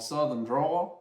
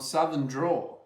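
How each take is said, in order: First: It is said in a Southern American accent. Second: It is said in a neutral accent. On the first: The speaker calls it right. "Much better" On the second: The speaker calls it wrong. "you didn't do your Southern accent"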